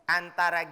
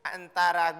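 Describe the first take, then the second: Both takes have the same delivery.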